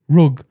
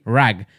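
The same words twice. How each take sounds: First: Rug with a short oo, as in book; own pronunciation of rug. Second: Rug said with an open a, like rag; imitating friend's rug. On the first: Shown as a demonstration. Host defends own way of saying rug, northern oo. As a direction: say rug the northern way, vowel like put. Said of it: "that's how we say it". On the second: Host mocks how co-host says rug, open vowel. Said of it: "You say rag".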